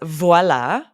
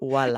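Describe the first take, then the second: First: The word begins with a V sound. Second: The word begins with a W sound. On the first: "So this word is voilà" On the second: "Instead of the V, they'll make it a W"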